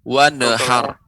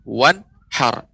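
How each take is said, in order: First: An extra vowel is heard after the n. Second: No extra vowel is heard after the n. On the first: The speaker calls it wrong. "nun menjadi kolkolah" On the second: The speaker calls it right.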